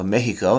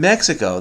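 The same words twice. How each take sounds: First: It is said with a Spanish pronunciation. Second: It is said with an English pronunciation. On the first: "They don't say Paris or Mexico" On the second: "We use English pronunciation for Paris and Mexico"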